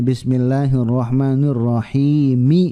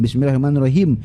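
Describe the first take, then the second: First: The phrase ends with a vowel, 'rahimi'. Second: The phrase ends on a closed 'him' sound. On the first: The speaker calls it right. "Padahal itu ada harokatnya, mi ya" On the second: The speaker calls it wrong. "lancar baca bismillahirrahmanirrahim, him him him"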